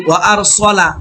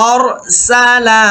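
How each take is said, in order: First: আরসালা with a short সলা; wrong vowel demo. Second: আরসালা with a full open সা; correct vowel demo. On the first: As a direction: mimic the clipped সলা in আরসালা. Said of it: "অনেকেই আমরা আবার বলি". (ভুল উচ্চারণে আরসালা) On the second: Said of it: "সালা, সিন জবর স হয় না". (সঠিকভাবে সা দিয়ে আরসালা) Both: Shown as a demonstration.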